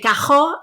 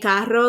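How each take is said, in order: First: The word has a Puerto Rican r sound. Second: The word has a general Spanish r sound. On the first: "we say cajo" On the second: "like normal like spe- Spanish speaking countries do"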